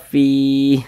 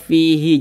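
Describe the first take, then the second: First: The word ends on a stopped h sound. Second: The word ends with a short i vowel. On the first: The reader pauses on this word. The speaker calls it right. "Ini kan kita baca fi" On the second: The reading carries on without a pause. The speaker calls it wrong. "Jangan dibaca fihi"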